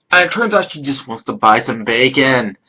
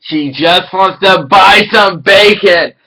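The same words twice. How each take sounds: First: Said in the usual way. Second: Louder and slow, stressing "buy"; emphatic shout. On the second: Shown as a demonstration. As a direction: hammer the punchline home, leaning on "buy". Repeats line for emphasis.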